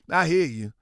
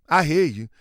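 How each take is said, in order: Both takes have the same delivery.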